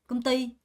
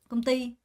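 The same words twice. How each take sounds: First: The stress falls on the second syllable. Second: The stress falls on the second syllable.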